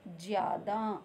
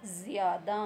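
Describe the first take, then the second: First: ज़्यादा with a plain ज; plain j in jyaada. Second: ज़्यादा with a clear z; z in zyaada. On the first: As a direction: say ज़्यादा as jiyaada. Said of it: "और जब नुक्ता लग गया". (बिना नुक्ते के ज्यादा) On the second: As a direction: say ज़्यादा as ziyaada. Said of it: "तो बन गया". (नुक्ते के साथ ज़्यादा) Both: Shown as a demonstration.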